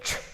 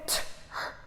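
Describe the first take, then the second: First: The two sounds are blended into one unit. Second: The two sounds are said separately with a gap. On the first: The speaker calls it right. "say tr together" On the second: The speaker calls it wrong. "Don't say t, r"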